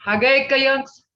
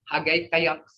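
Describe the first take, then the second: First: Hagekayunks called out high and loud; loud model word. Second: Said in the usual way. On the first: Shown as a demonstration. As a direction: announce Hagekayunks to the class. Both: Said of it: "But past tense".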